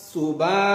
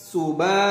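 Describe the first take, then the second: No difference in how they are said.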